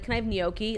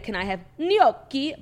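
First: Gnocchi is said with a mixed accent. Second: Gnocchi is said with a full Italian accent.

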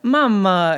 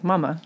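First: The word has an Italian-sounding accent. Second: The word has a plain American accent. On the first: "like mama instead of" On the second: "instead of like mama"

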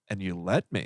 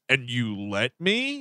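First: It sounds neutral, not accusing. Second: It sounds accusing.

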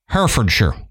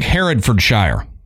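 First: The ending is pronounced 'sure', UK style. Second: The ending is pronounced 'shire', Southern American style.

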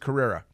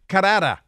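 First: The name is said with an American pronunciation. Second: The name is said with a Spanish-style pronunciation. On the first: The speaker calls it right. "He's in the United States now" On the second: The speaker calls it wrong. "if you're listening to the local news reporter"

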